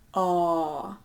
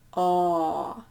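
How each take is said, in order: First: The vowel is held for a long time. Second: The same.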